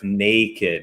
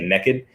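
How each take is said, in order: First: It is said without a Southern twang. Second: It is said with a Southern twang.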